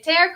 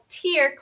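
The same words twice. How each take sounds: First: The vowel sounds like the word 'air'. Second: The vowel sounds like the word 'ear'. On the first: It means to rip something. "tear como rasgar" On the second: It means a drop from the eye. "tear como lágrima"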